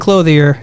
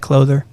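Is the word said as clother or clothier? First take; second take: clothier; clother. First: It is said as clothier, with an ee sound. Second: It is said as clother, without the ee sound. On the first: The speaker calls it wrong. "If you've been saying clothier, it's it's wrong" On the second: The speaker calls it right. "it's said clother"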